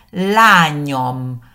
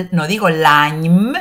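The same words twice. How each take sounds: First: Lányom with a full o before the m; correct pronunciation lányom. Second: Lányom said as lanym, vowel dropped; wrong pronunciation lányom. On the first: Teacher giving the right form, lányom with the o. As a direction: say lányom, o linking the m. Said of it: "Fíjense que digo". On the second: Teacher showing the mistake, lányom without the o. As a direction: swallow the o in lányom. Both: Shown as a demonstration.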